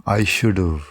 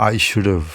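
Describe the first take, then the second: Both takes have the same delivery.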